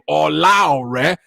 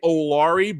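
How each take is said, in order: First: The name is said with its full Nigerian pronunciation. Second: The name is said in a shortened, anglicized way. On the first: This is the authentic version of the speaker's own name. "my real pronunciation of my Nigerian name" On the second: This is the everyday version the speaker usually uses. "Normally I say Olari"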